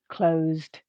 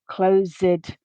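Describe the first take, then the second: First: The ending adds no syllable; it is one syllable. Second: The ending adds a vowel; it is two syllables. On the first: The speaker calls it right. "the base form has the same number of syllables as the past tense ed form" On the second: The speaker calls it wrong. "this both adds a syllable and a vowel sound"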